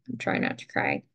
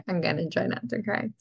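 First: Fighting tears in a voiceless whisper; tearful whisper. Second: Said in the usual way. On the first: Real, not acted. Overcome by the lyrics, she whispers to viewers through tears.

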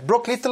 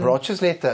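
First: "Brock Little" as commonly said, without the extra syllable; supposedly wrong pronunciation. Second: "Brochus Little" copied from the speech synthesizer's odd reading; echoing computer pronunciation. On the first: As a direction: say "Brock Little" short, as people usually do. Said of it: "det stämmer inte". ("Brock Little" utan extra stavelse, som folk brukar säga) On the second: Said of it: "så kommer datorn berätta". ("Brochus Little" uttalat som talsyntesen) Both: Shown as a demonstration.

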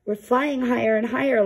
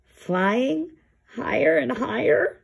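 First: Higher, gleeful; delighted. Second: Higher, questioning worry; anxious bear echoing the puffin; nervous echo. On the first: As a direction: savour the rising flight. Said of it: "said Yuri". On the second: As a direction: repeat it back in growing alarm. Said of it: "Lars gulped". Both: Acted.

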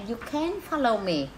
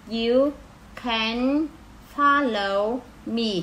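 First: Said in the usual way. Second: Slow read. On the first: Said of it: "normal read after slow one". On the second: Shown as a demonstration. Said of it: "slow syllable-by-syllable reading".

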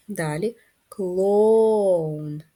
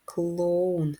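First: "клоун" very slow, the О dragged out long; stretched vowel. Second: Said in the usual way. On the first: Shown as a demonstration. Teacher stretching the О in clown for first graders. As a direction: drag out the О in "клоун" very slowly. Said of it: "звук О, він голосний". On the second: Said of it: "клоун, звук Л".

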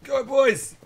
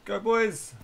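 First: High, loud rallying cry; loud excited cheer. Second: Excited cheer. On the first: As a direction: cheer the troops on hard. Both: Real, not acted. Cheering soldiers on.

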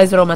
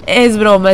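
First: Said in the usual way. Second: Chuckling through the words; laughing it off. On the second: Real, not acted. Streamer laughing to viewers that quitting was a joke, chuckling. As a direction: laugh while taking back the fake goodbye.

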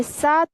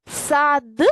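First: "сад" ending in т instead of д; devoiced ending. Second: "Сад" with a clearly voiced final д; voiced ending. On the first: Teacher offering pupils the second choice, devoiced ending. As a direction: end "сад" on a voiceless т. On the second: Teacher offering pupils the first choice, voiced ending. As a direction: sound out the д at the end of "Сад". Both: Shown as a demonstration. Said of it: "чи сад?".

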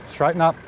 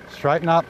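No difference in how they are said.

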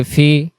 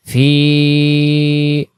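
First: ফি clipped short without the ইয়া; wrong short fi; short vowel. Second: ফি with the ি held long; drawn-out fi; long vowel. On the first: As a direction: say ফি quickly, no stretch. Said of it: "এই উচ্চারণটা যদি আমি বলি ফি". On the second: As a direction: stretch ফি for one alif. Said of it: "যখন আমরা জের টান দেব". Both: Shown as a demonstration.

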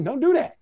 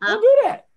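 First: A firm don't do that; firm warning. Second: Much higher and louder, mock alarm; playful loud warning. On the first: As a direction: warn the class off it. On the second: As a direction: shout it up high as a hammed-up warning. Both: Shown as a demonstration. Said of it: "No, no, no, no, no".

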